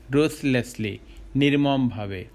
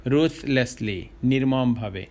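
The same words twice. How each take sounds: The two takes are said the same way.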